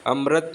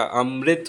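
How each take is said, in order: First: अमृत said as "amrat", with a short a; wrong pronunciation. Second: अमृत said as "amrit", with ri; correct pronunciation. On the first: Teacher showing the mistaken अमृत, mispronounced as "amrat". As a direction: say अमृत with ra in place of ri. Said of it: "अमृत नहीं होता". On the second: Teacher correcting अमृत for students, pronounced as "amrit". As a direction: give अमृत a clear ri after the m. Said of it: "अमृत होता है". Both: Shown as a demonstration.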